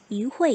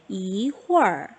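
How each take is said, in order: First: It ends plainly, without a curled-tongue r sound. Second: It ends with a curled-tongue r sound. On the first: "R을 만약에 뗐다면 이회" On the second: "얼화를 할 때 이 아이는 소리가 안 나요"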